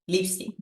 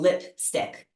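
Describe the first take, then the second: First: The p and k sounds are dropped. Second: The p and k sounds have puffs of air. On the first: This is how a Spanish speaker said it. The speaker calls it wrong. "dropping the final consonants" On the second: This is how an English speaker says it. The speaker calls it right. "they would puff out some air with both the P and the K"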